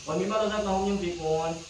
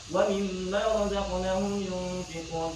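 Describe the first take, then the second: First: The long vowels are cut short. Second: The long vowels are held at full length. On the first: The speaker calls it wrong. "Tidak jadi" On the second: The speaker calls it right.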